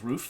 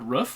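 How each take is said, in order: First: Roof is said with the common, different vowel. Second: Roof is said with the speaker's own vowel. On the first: This is how most other people say it. The speaker calls it wrong. "everyone else says roof, which is wrong" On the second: This is how the speaker personally says it. The speaker calls it right. "which I say correctly"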